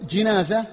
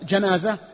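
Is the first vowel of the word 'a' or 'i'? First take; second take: i; a. First: The first vowel is a lower 'i' sound. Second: The first vowel is an open 'a' sound. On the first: It refers to the bier carrying the body. "وإذا قلت جنازة المقصود النعش" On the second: It refers to the dead person. "فإذا قلت بالفتح جنازة فالمقصود الميت"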